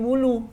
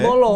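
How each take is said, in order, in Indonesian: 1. Kata itu diucapkan dengan vokal u. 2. Kata itu diucapkan dengan vokal o. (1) "kalau ditulis dengan B U L U jadi bulu" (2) "Kalau B O L O jadi bolo"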